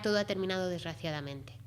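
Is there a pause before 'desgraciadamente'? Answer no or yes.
no. There is no pause before the last word. It ended in an unfortunate way. "si no hacemos la pausa es que ha terminado de una determinada manera"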